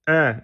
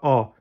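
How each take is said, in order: First: The vowel is thin, like 'e'. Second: The vowel is open, like 'a'. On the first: The speaker calls it right. "E et non pas A" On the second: The speaker calls it wrong. "non pas A"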